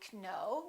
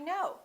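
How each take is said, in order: First: The K is sounded at the start. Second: The K is silent at the start. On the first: The speaker calls it wrong. "We don't say I know" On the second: The speaker calls it right. "the K is silent"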